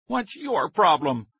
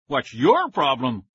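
First: High, slow angry demand; higher, slower furious shout. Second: Slightly loud, slow echo of the shout; a narrator's understated scream; lightly voiced screaming brother; mild mock scream. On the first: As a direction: bark it at the boy. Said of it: "Billy Wilbur shouted angrily". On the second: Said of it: "Willie screamed". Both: A narrator's reading.

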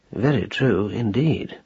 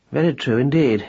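First: Slower and quieter, musing; turning the words over thoughtfully; reflective. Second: Said in the usual way. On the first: A narrator's reading. Marcus musing to his wife after a pause, slow and quiet. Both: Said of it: "He paused reflectively".

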